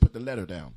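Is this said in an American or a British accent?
American. It is said in an American accent. "the Americans will always say put the letter down"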